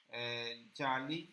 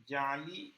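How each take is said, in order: First: Slow drawn-out جعلی. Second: Said in the usual way. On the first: Shown as a demonstration. Teacher to students, drawing out جعلی slowly. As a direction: stretch جعلی slowly, syllable by syllable. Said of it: "جعلی معنی ہوتا ہے فرضی". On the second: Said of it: "یہ ہے جعلی".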